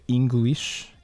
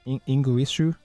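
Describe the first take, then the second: First: It is said with a plain English pronunciation. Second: It is said with Japanese sounds, adding a final vowel.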